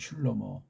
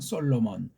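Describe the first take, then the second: First: The name is said as Shlomo. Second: The name is said as Solomon. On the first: The speaker calls it right. "슐로모라고 발음하는 게 좀 낫겠죠?" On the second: The speaker calls it wrong. "우리네 발음으로는"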